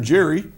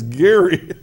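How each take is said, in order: First: The name begins with a soft J sound. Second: The name begins with a hard G sound. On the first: The speaker calls it wrong. "Don't do that" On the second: The speaker calls it right. "it's Gary"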